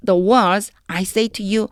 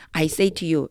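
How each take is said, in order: First: The whole phrase read very slowly, word by word. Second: Said in the usual way. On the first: Shown as a demonstration. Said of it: "한번 해볼게요". (문장 전체를 아주 천천히 읽기) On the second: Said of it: "그냥 해보세요".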